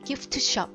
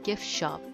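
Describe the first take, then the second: First: The t in gift is clearly pronounced. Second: The t in gift is dropped. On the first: The speaker calls it wrong. "이렇게 하면은 발음도 잘 안 되니까" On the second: The speaker calls it right. "중간에 있는 소리가 잘 안 난다"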